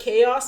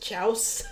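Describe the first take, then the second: First: The word begins with a 'k' sound. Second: The word begins with a 'ch' sound.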